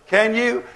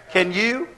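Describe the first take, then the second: No difference in how they are said.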